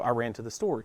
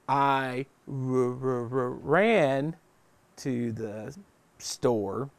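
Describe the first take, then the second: First: It is said smoothly without any hesitation. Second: It is said haltingly, sounding out each word.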